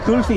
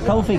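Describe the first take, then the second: First: The word is said like kulfi. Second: The word is said like coffee. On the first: The speaker calls it right. "That's how you pronounce it" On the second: The speaker calls it wrong. "not kulfi"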